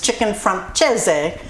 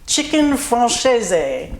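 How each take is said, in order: First: The name is pronounced the Italian way. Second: The name mixes French and Italian sounds. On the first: "Italian is" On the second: "I kind of did a mix of the two"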